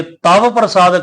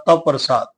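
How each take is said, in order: First: "ਤਵ" slowly with the vav fully voiced as "taw"; full vav. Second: "ਤਵ" with the vav barely touched, almost "ਤ ਪ੍ਰਸਾਦ"; light half vav. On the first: Teacher showing the full-vav reading, slow and clear. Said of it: "ਫਿਰ ਵਹੁਆ ਪੂਰਾ ਉਚਾਰਿਆ ਜਾਂਦਾ ਹੈ". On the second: Teacher showing the sangat the light half vav. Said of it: "ਥੋੜਾ ਹਲਕਾ ਉਚਾਰਾਂਗੇ". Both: Shown as a demonstration.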